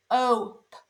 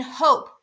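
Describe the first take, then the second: First: "H O P" as separate sounds: breathed h, long o, popped p; sounded out. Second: Said in the usual way. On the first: Shown as a demonstration. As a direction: break hope into "H O P" with gaps. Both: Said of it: "you hear the O".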